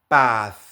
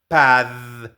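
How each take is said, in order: First: The final consonant has no vibration. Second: The final consonant has vocal vibration. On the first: The speaker calls it right. "No hay vibración" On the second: The speaker calls it wrong. "Con vibración sonaría algo así como pad"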